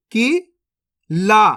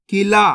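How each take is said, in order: First: Qila stretched very slowly, sounds held; slow teaching demo; drawn out slowly. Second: Said in the usual way. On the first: Shown as a demonstration. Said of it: "अब चलिए आगे देखिए". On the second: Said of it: "तो मिलके बन जाएगा".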